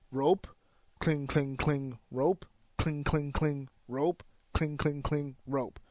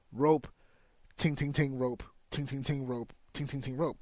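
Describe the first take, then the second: First: Even, unhurried "cling, cling, cling" between each "rope"; steady natural cadence. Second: Quick, tight "ting, ting, ting" bursts between each "rope"; sped-up flow. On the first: Trainer showing natural rope running in a twenty, steady. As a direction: keep "rope, cling, cling, cling" regular as breathing. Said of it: "There's a consistency there". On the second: Trainer showing rope running in an eighteen, sped up. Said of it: "Now you're speeding up the natural flow". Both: Shown as a demonstration.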